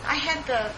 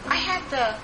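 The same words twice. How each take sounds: The two takes are said the same way.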